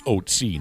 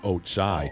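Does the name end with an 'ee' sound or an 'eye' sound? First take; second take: ee; eye. First: The name ends with an 'ee' sound. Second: The name ends with an 'eye' sound. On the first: The speaker calls it right. "the pronunciation of its name is Otzi" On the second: The speaker calls it wrong. "not Otsai"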